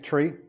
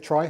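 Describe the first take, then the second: First: The vowel sounds like the one in "tree". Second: The vowel sounds like the one in "try". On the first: "I've been pronouncing it tree" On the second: "some people may pronounce it try, that's fine as well"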